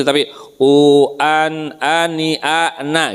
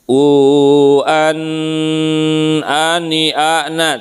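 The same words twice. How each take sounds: First: "u an ani ana" with a plain, crisp n and no humming; clear nun. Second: Sung, "u an ani ana" with a nasal dengung on the n; sung, wrong nasalized nun in "u an ani ana"; wrong nasal hum. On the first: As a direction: say the nun cleanly. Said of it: "gitu maksudnya". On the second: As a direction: hum the nun through the nose. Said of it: "tidak boleh misalnya gini". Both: Shown as a demonstration.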